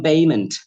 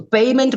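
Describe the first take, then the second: First: Arabic-accented "payment", b replacing p. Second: Said in the usual way. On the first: Shown as a demonstration. Trainer imitating Arabic students, b-for-p "payment". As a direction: say "payment" as "bayment", Arabic style. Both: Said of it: "per becomes ber".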